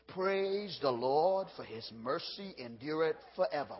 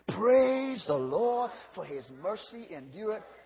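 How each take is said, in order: First: The phrase is said at normal volume. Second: The phrase is said more loudly. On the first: "Everybody say it with me" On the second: "One more time and louder"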